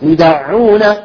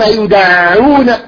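First: The doubled ayn is soft and smooth. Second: The doubled ayn is forced and strained. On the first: The speaker calls it right. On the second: The speaker calls it wrong.

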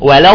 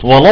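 First: The l is light with a normal open vowel. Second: The l is heavy and dark. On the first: The speaker calls it right. "لا عادي" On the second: The speaker calls it wrong. "ولا فخم اللام"

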